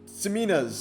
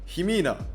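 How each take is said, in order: First: The name begins with an S sound. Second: The name begins with an H sound. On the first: The speaker calls it wrong. "Last time I said Simina's, and I think that was wrong" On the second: The speaker calls it right. "like how you pronounce Juan, but you know the X is the J"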